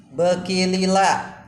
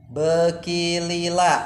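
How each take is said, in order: Both takes have the same delivery.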